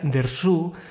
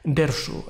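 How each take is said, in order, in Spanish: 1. El acento está en la segunda sílaba. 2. El acento está en la primera sílaba. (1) "se pronuncia Dersu" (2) "acentuando la primera sílaba"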